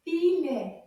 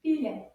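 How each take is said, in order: First: "Filet" loud, with syllables held apart; slow model. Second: "Filet" as one quick word; a bit faster. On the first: Teacher shows children the word "Filet", measured and split. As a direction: separate the two syllables of "Filet". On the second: Teacher models "Filet" after slow practice, a bit faster. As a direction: join "Filet" up briskly, a little loud. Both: Shown as a demonstration. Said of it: "say it a little bit faster".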